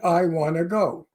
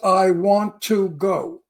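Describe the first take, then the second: First: 'Want to' is cut down to 'wanna'. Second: 'Want to' is said fully as two words.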